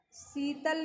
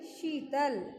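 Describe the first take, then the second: First: शीतल said as "seetal", starting with स; स in place of श in शीतल; wrong s sound. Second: शीतल said as "sheetal"; hushing "sh" opening शीतल; sh sound. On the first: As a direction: say शीतल with a plain s. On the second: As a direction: say शीतल with a clear श at the start. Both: Shown as a demonstration. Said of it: "शीतल नहीं".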